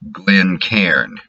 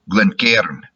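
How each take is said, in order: First: It is said in a Northern US accent. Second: It is said in a Scottish accent. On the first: "If I try to do it Yankee style" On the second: "In Scotland, it would be something like"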